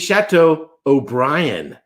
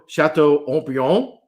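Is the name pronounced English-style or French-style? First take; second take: English-style; French-style. First: The name is pronounced the English way. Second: The name is pronounced the French way. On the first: This is the name's original Irish form. "it's actually Chateau O'Brien" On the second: This is how the French say the name. "is how you pronounce it in French"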